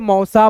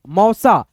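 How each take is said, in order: First: It is read fast. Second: It is read slowly.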